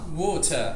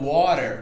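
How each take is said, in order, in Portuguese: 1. O R final é silencioso. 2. O R final é pronunciado. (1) "a gente não vai pronunciar esse R" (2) "como seria no inglês americano"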